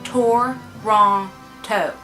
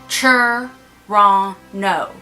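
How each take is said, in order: First: Both T sounds in the word are clearly pronounced. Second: The T sounds in the word are dropped. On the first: The speaker calls it right. "which is the correct way to pronounce Toronto" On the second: The speaker calls it wrong. "we are really lazy and we say Toronto. There's no T's"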